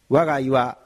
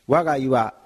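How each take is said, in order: No difference in how they are said.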